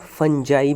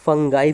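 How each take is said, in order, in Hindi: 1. इसमें नरम j है और यह 'eye' पर खत्म होता है। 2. इसमें कठोर g है और यह 'eye' पर खत्म होता है। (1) "और फंजाई भी बोल सकते हैं" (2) "फंगाई भी बोल सकते हैं"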